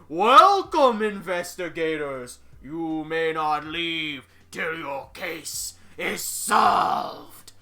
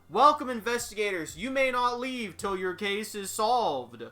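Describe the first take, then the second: First: It is read in a shrill, raspy ghost voice. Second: It is read in an ordinary reading voice.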